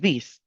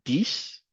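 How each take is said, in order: First: The word starts with a voiced th sound. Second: The word starts with a hard d sound. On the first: The speaker calls it right. "Mettez la langue entre les dents" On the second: The speaker calls it wrong. "vous éviterez de dire euh, dix comme dix"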